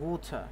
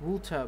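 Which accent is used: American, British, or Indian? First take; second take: British; British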